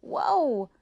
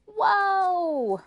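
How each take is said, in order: First: Raised, loud call, fairly short. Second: Long, very high holler; crying out. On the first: Rose giving the horse word for stop, calling out. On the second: May May crying out to stop the horse, long holler. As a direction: yell it long and loud. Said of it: "cried May May". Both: Acted.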